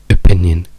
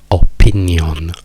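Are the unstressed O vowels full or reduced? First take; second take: reduced; full. First: The unstressed O vowels are reduced to schwa. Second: The unstressed O vowels are full and clear. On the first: This is how it is said in English. The speaker calls it right. "le due O diventano schwa" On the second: This is how an Italian speaker would say it. The speaker calls it wrong. "la parola in italiano direste opinion"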